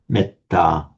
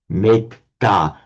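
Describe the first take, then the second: First: The first vowel is short. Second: The first vowel is long. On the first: "the e here becomes short because it's followed by a double consonant" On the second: "a Sanskrit speaker looking at the Pali word metta would pronounce it as metta"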